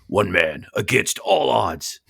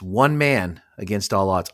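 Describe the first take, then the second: First: It is said in a deep, dramatic announcer voice. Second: It is said in an ordinary speaking voice.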